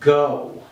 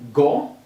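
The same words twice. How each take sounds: First: The vowel is long and drawn out. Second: The vowel is short and clipped. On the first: The speaker calls it right. "it's an elongated sound" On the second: The speaker calls it wrong. "short sound"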